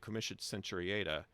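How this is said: It is said in an English-style Latin pronunciation. It follows the older English tradition for Latin. "I'm just using the traditional English pronunciation"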